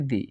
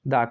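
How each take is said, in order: First: It ends in a long 'ee' vowel. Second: It ends in a short 'uh' vowel. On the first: It comes before a vowel sound. "Vowel sound देखने को मिले तो ऐसी स्थिति में आप इसे प्रोनाउंस करेंगे" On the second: It comes before a consonant sound. "हम इसे प्रोनाउंस करेंगे द के रूप में"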